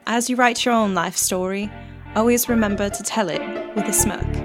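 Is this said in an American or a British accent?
British. It is said in a put-on British accent.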